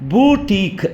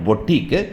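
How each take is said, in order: First: The first vowel is long, like 'boo'. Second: The first vowel is short, like 'po'. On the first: The speaker calls it right. "இந்த வாவல் சவுண்ட் ரெண்டுமே வந்துட்டு நெடில் சவுண்டு" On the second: The speaker calls it wrong. "நாட்"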